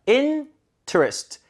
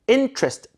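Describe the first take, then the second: First: The later syllables have full vowels. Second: The later syllables are weakened after the stress. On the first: The speaker calls it wrong. "interest가 아니라" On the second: The speaker calls it right. "뒤에 부분을 약화시켜야겠죠"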